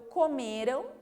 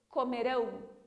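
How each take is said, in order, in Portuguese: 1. A sílaba final é fraca e átona. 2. A sílaba final é forte e tônica.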